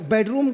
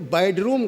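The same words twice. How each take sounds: First: The first syllable has the vowel of 'bed'. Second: The first syllable has the vowel of 'bad'. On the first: The speaker calls it right. "बेडरूम की जगह" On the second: The speaker calls it wrong. "वो बेडरूम कह गए"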